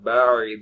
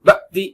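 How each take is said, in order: First: The middle sound flows through without a break. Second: The middle sound is cut off with a jerk. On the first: The speaker calls it right. "நான் எப்படி சொல்றேங்க கவனிங்க" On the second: The speaker calls it wrong. "Jerk அடிச்ச மாதிரி... கட் பண்ண மாதிரி சொல்லக்கூடாது"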